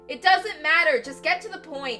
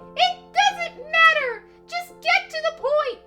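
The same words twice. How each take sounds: First: It is said in Makoto's normal voice. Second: It is said in a squeaky Mickey Mouse voice.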